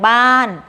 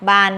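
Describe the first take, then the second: First: The syllable is said on a falling tone. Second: The syllable is said on a low tone. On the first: "ไม้โท" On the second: "ไม้เอก"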